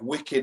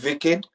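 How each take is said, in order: First: It is said in a plain English accent. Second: It is said in an Indian accent.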